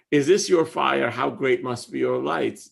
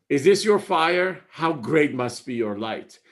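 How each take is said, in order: First: Calm rereading of the verse; gentle poem reading. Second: Stressed, ringing reading of the line; emphatic poem recital. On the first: Rereads the whole stanza. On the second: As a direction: lean hard on "this" like a revelation. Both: Acted.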